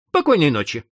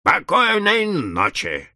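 First: Said in the usual way. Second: Slow, drawn-out disappointed goodnight; mock disappointed telephone membrane. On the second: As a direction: let it sag, slowly, let down. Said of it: "разочарованно чавкнула мембрана".

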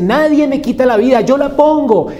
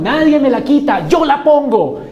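First: Loud, high, triumphant "Nadie me quita la vida"; loud proclamation. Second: Loud, high, triumphant "Nadie me la quita"; loud proclamation, repeated. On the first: (proclamación triunfal y fuerte) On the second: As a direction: repeat the proclamation with full force. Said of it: "la dio, no se la quitaron". (proclamación triunfal repetida, muy fuerte) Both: Acted.

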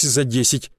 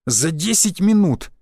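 First: Said in the usual way. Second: "За десять минут" drawn out slowly, with weight; emphatic repeat. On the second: A narrator's reading. Narrator marvelling at rivals' speed, "За десять минут" slow and emphatic. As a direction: stretch "За десять минут" in mild disbelief, leaning on each word.

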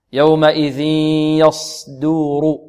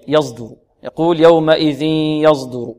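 First: Slow recited "يومئذ يصدر" with unvoiced, heavy ص; correct pure sad. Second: "يصدر" with ص voiced towards ز; z-tinged sad. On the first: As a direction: chant "يصدر" keeping the ص free of any ز. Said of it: "وهذا خطأ". ("يصدر" بصاد خالصة مرتلة) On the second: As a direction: let a buzz of ز into "يصدر", as learners mistakenly do. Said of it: "أو يأتي برائحة الزاي". ("يصدر" بإشمام الصاد زايًا خطأً) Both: Shown as a demonstration.

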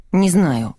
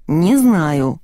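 First: Said in the usual way. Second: "знаю" drawn out with emphasis; emphatic repeat. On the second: A narrator's reading. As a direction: lean firmly on "знаю", stretching it. Repeated answer to insistent asking. (с нажимом, растягивая «знаю»)

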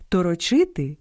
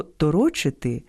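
First: ТороЧИ́ти, third syllable stressed; торочити with the stress on ЧИ. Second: ТоРО́чити, second syllable stressed; торочити with the stress on РО. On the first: (наголос на третьому складі: торочи́ти) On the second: (наголос на другому складі: торо́чити) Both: Shown as a demonstration. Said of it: "місце наголосу впливає на значення".

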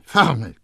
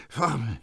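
First: Louder croaked repeat. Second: Croaked. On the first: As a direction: croak the word Formel, louder. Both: A narrator's reading. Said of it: "krächzte Grenouille".

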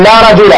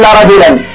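First: "رجل" ending in a single fatha, no tanween; correct form. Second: "رجلا" with tanween, ending "rajulan"; wrong form. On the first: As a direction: say "لا رجل" as "rajula", no final n. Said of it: "بفتحة واحدة بدون تنوين". ("رجل" بفتحة واحدة بدون تنوين) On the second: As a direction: give the incorrect "لا رجلا" with the n sound. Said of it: "ولا نقول". ("رجلا" بالتنوين، نطق خاطئ) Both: Shown as a demonstration.

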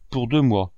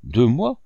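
First: Said in the usual way. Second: DEUX MOIS louder, rising sharply at the end; astonished question. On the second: A narrator's reading. Lady hears the boy is alone two months, astonished question.

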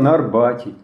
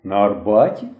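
First: Said in the usual way. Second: АРБАТІ rising as a surprised question. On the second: A narrator's reading. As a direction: repeat it as a question, lifting the end of АРБАТІ. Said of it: "здивувався вожатий".

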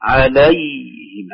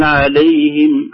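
First: "عليهم" with a full a on lam and a still ya, very slow; slow correct "عليهم"; فتحة خالصة وياء لينة; pure open lam. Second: "عليهم" with the lam tilted toward i, very slow; the faulty "عليهم", drawn out; فتحة اللام ممالة; wrong lam vowel. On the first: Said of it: "نقول". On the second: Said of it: "لا نقول". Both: Shown as a demonstration.

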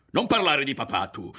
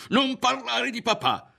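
First: High, loud warning shout; furious yell. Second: Very high, loud, strained scream; furious scream. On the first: Ario defending his father from the woman, yelling. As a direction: yell to shut her up. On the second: Ario lunging at the woman over his father, screaming. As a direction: scream it at the top of your range. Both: A narrator's reading. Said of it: "le urlò".

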